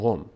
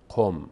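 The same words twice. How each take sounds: First: It starts with a ghein-like throaty sound. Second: It starts with a deep Arabic qaf sound. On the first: The speaker calls it right. "میگیم قم. و قاف رو غین تلفظ میکنیم" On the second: The speaker calls it wrong. "نمیگیم قم"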